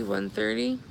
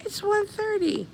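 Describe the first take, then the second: First: Said in the usual way. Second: High-pitched disbelief, falling at the end; real surprise. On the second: Real, not acted. Streamer noticing how late it is, surprised. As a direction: jump way up in pitch, amazed at the hour.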